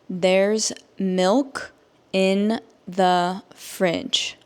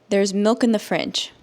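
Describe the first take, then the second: First: The sentence is spoken slowly. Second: The sentence is spoken at normal speed. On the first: "I will say it slowly so that you can understand" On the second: "at a normal native English speaker speed"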